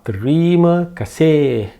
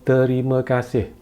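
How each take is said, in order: First: One syllable is stressed more than the others. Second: All syllables get roughly equal weight. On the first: The speaker calls it wrong. "it's not terima kasih" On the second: The speaker calls it right. "it's not stressed"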